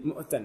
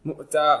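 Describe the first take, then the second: First: The word is said in running, connected form. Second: The word is said in its stopping, pausal form.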